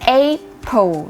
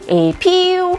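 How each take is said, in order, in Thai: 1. เน้นที่พยางค์แรกค่ะ 2. เน้นที่พยางค์ที่สองค่ะ (1) "เน้นที่พยางค์แรก" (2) "ไม่ใช่เน้นพยางค์ที่2 แบบ"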